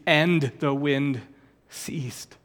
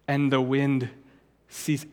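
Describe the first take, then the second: First: AND punched, then "ceased" dropped to a hush; stress on AND. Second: Said in the usual way. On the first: Shown as a demonstration. Repeats verse against coincidence reading.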